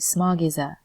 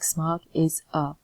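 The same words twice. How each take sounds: First: The words run together like one word. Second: The words are split apart, not linked. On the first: The speaker calls it right. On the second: The speaker calls it wrong. "Instead of splitting it up like"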